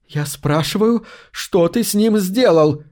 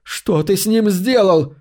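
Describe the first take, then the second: First: A demanding question pitched high and slow; demanding, trembling. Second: High, slow cry of demand; shouted question. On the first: Cassandra confronts Max over Harry, demanding and shaken. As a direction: press him hard for the answer. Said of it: "низким дрожащим голосом требовательно спросила она". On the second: Cassandra shouts at Max over dying Harry. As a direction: yell the question at him. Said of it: "выкрикнула Кассандра". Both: A narrator's reading.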